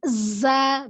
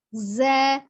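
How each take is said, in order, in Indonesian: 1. Bunyi z ditekan keras. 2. Bunyi z lembut dan mengalir. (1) "tapi jangan di za" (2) "Lembut mengalirnya"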